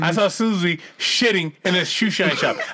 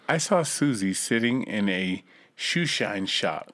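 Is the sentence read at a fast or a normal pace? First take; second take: fast; normal. First: The sentence is read at a fast pace. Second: The sentence is read at a normal pace.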